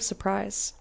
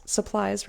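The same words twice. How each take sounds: First: "surprise" read in place of supplies; misread word. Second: Said in the usual way. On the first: Real, not acted. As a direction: slip and say "surprise".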